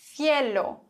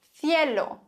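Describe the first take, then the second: No difference in how they are said.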